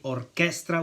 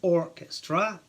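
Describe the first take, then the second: First: The stress is on the second syllable. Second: The stress is on the first syllable. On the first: This is the Italian pronunciation. "in Italian we say orchestra with the accent on the second syllable" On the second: This is the English pronunciation. "in English it's orchestra on the first syllable"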